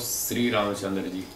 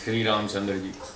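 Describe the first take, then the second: First: The first sound is a plain 's'. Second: The first sound is a clear 'sh'. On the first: The speaker calls it wrong. "वो श को स बोलते हैं" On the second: The speaker calls it right. "श्री बोलते हैं"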